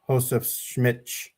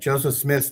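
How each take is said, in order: First: It is said with Brazilian Portuguese sounds. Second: It is said with plain English sounds.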